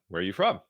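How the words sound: The pitch goes from low to high at the end.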